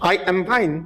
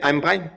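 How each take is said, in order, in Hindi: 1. I am को दो पूरे शब्दों की तरह बोला जाता है। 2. I am एक ही सिलेबल में कंट्रैक्ट हो जाता है।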